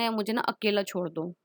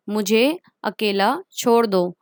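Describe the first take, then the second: First: Weary sad plea. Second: Said in the usual way. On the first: Retold or imitated. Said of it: "जब हम गुस्से में होते हैं या फिर उदास होते हैं". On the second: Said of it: "जब हम गुस्से में होते हैं".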